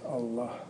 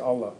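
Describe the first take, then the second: First: The word ends with an audible breathy h. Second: The word ends without an audible final h. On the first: The speaker calls it right. "We say Allah, properly speaking" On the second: The speaker calls it wrong. "We don't say Allah"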